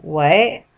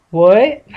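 First: Low, blank questioning. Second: Echoed question. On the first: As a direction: ask it blankly, in a low register. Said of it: "Jack looked blankly at Patrick". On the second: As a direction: repeat it back as a clueless sidekick. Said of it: "Patrick repeated". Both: A narrator's reading.

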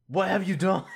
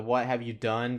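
First: Higher, louder mock demand; imitating an angry Batman. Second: Said in the usual way. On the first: Batman demanding answers from Riddler, mock angry shout. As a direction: bark it like a furious Batman. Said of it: "he's just like". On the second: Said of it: "Batman has to say it more than once".

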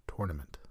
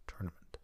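First: Tournament starting like tore; TOR-nament. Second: Tournament starting like turn, softly; a quiet correction, tournament with an er vowel; TUR-nament, softer. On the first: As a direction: say tournament with an or vowel. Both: Shown as a demonstration. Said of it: "depending on how you want to say it".

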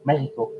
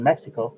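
First: "Mexico" with a breathy h for the x; "Mexico" the Spanish way, h sound in the middle; Spanish pronunciation. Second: Said in the usual way. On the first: Shown as a demonstration. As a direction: say "Mexico" as MEH-hee-ko. Repeats country in Spanish pronunciation.

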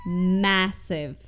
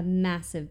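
First: "Massive" said loud and drawn out; stress on Massive. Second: Said in the usual way. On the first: Shown as a demonstration. Reader stresses a capitalized word, loud emphatic "Massive".

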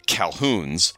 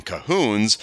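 First: "Calhouns" drawn out slowly with the L; written pronunciation. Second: "Cahoons" drawn out slowly without an L; own pronunciation. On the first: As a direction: stretch "Calhouns" as it is spelled, L included. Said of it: "and he wrote of Calhouns". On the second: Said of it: "of course I'm saying Cahoons". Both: Shown as a demonstration.

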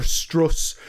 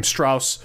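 First: Strauss said STROHS, long o vowel, slow. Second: Strauss said with the ow of house, STROWSS. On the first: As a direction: Strauss drawn out slowly with an oh sound. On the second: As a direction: Strauss rhymed with mouse, the common way. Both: Shown as a demonstration. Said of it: "it's pronounced Strauss".

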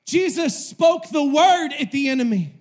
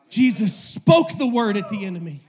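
First: Emphatic weight on "word"; stress on word. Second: Emphatic jump on "spoke"; stress on spoke. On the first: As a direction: hit "word" hard on the repeat. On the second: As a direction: lean hard on the word "spoke". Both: Real, not acted. Preacher repeats line with shifted emphasis.

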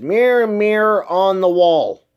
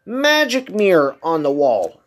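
First: Slow, weight on the first "Mirror"; misremembered line. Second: Slow, weight on "Magic"; corrected line. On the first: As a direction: lean on "Mirror, mirror" as the famous version. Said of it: "she never said that". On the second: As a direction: land "Magic" as the true wording. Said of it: "She said". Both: Shown as a demonstration.

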